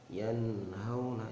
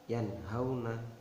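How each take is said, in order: First: The n sound is held and drawn out. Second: The n sound is pronounced clearly, not held. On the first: The speaker calls it wrong. "ini enggak benar, kurang tepat" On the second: The speaker calls it right. "maka harus dibaca jelas"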